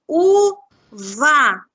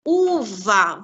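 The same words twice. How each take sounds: First: "Uva" loudly split u-va with a gap between; syllable by syllable. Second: Said in the usual way. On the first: Shown as a demonstration. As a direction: sound out "Uva" in two separate, forceful beats. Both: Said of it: "Vamos ver quantas sílabas tem?".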